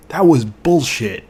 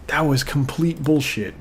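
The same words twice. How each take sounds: First: Slow, loud, drawn-out angry verdict on "bullshit"; furious outburst. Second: Said in the usual way. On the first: Real, not acted. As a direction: spit out "That was bullshit" slowly and much louder, really fed up. Angry rant over the game.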